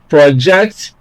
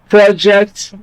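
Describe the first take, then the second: First: The stress is on the second syllable. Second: The stress is on the first syllable. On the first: It is used as a verb. "stress the second syllable when it is a verb" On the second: It is used as a noun. "stress the first syllable when it is a noun"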